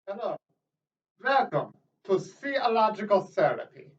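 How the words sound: It is spoken with a put-on German accent. "this ridiculous German accent I am pretending to have"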